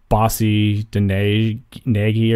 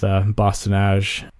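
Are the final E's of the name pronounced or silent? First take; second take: pronounced; silent. First: The final E's of the words are pronounced. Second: The final E's of the words are silent. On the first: The speaker calls it wrong. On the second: The speaker calls it right.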